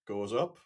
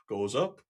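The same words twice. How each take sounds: The two takes are said the same way.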